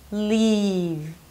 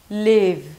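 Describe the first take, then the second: First: The vowel is a tense, clear 'ee' sound. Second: The vowel sounds lax, between 'ee' and 'i'. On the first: The speaker calls it right. "This time I got it right" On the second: The speaker calls it wrong. "now I'm gonna say it with an accent, so I'm not gonna pronounce it correctly"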